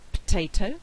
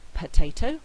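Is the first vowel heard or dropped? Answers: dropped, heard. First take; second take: dropped; heard. First: The first weak vowel is dropped. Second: The first weak vowel is pronounced. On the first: "we get potato" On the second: "instead of saying potato"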